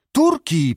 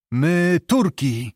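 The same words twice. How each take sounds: First: Said in the usual way. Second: Slow, halting foreigner's broken Polish on "My Turki"; halting, slow "My Turki" from a captive foreigner. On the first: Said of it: "powtórzył Zbyszko". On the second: A narrator's reading. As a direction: say "My Turki" slowly, word by word, like a stranger to the language. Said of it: "polskim łamanym językiem".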